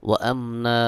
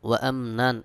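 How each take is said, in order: First: The last word ends with a long a vowel. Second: The last word ends with an n sound. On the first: "ওয়াকফা করব এক জবর উচ্চারণ করে এক আলিফ টান দিতে হবে" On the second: "নুন দুই জবর নান"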